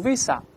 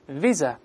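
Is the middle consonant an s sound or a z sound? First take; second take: s sound; z sound. First: The middle consonant is an s sound. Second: The middle consonant is a z sound. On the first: The speaker calls it wrong. "注意不要读visa" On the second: The speaker calls it right. "中间发z 的声音"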